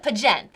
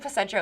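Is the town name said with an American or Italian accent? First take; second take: Italian; American. First: It is said with an Italian dialect accent. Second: It is said with an American accent. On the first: "they used to call it Pagent"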